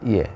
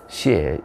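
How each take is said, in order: First: The word begins with a 'y' sound. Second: The word begins with a 'sh' sound. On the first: This is the modern reading. "요즘은 전부 이해라고 읽습니다" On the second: This is the old reading used for the place name. "옛날에는 시해, 예, 시해 이렇게 사성 시해로 읽었어요"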